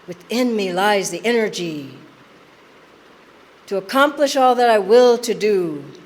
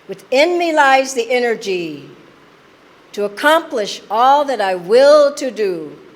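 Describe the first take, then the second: First: It is said more softly. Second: It is said at normal loudness.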